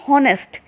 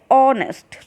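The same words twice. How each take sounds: First: The word begins with an h sound. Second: The word begins with a vowel sound. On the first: The speaker calls it wrong. "we do not say honest" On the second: The speaker calls it right. "we call it honest"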